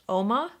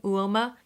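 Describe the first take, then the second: First: The name starts with an 'oh' sound. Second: The name starts with a 'you' sound. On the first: The speaker calls it right. "you're supposed to say it more like just Oma" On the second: The speaker calls it wrong. "I was saying Uoma because there's a U in front of the O"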